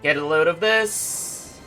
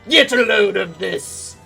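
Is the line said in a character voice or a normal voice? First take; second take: normal voice; character voice. First: It is said in the speaker's ordinary voice. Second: It is said in a put-on villain voice. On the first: "I don't feel like doing the voice" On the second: "Actually, you know what?"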